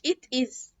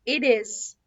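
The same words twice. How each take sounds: First: The t between vowels is a clear t. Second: The t between vowels sounds like a soft d. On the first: The speaker calls it wrong. "مش it is" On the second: The speaker calls it right. "اسمها it is"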